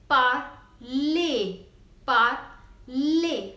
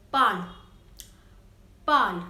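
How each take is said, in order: First: "parler" as par-lay, last syllable drawn out; accent aigu ending. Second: "pal" as one loud syllable with no ay ending; no-accent pronunciation. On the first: Teacher modelling the word for learners, "parler" said par-lay. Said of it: "But if accent aigu is not E". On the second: Teacher showing the word without accent, "pal" as one syllable. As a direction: cut "pal" off after the l. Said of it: "then it will be pronounced as". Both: Shown as a demonstration.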